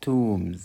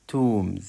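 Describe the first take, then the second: No difference in how they are said.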